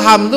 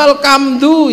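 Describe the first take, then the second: First: It is said with standard Arabic pronunciation. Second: It is said with a Javanese accent.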